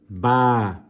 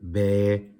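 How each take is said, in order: First: The letter name ends in an 'ah' vowel. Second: The letter name ends in an 'eh' vowel. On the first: This follows the Arabic way of naming the letter. The speaker calls it right. "The Arabic alphabet doesn't work like that. It's alif, ba" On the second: This follows the Urdu way of naming the letter. The speaker calls it wrong. "some people tend to pronounce them as alif, be, te, the. That is incorrect. That is from the Urdu alphabet"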